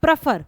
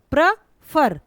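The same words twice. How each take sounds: First: Said in the usual way. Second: prefer broken as प्र, pause, फर; split into syllables. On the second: Shown as a demonstration. Teacher showing pupils two syllables, prefer split into प्र and फर. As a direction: punch each half of prefer separately and slowly. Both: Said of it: "दो, दो syllable आए".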